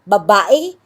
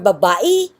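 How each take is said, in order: First: The final vowel is an 'e' sound. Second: The final vowel is an 'i' sound. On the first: "or babae or babai" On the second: "or babae or babai"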